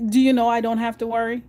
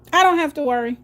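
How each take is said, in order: First: Said in the usual way. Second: DONT said higher and louder, pressed hard; emphatic repeat. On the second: Real, not acted. Reassuring viewers about bills, stressing "don't". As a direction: lean on "don't" in "I don't have to worry." to drive it home.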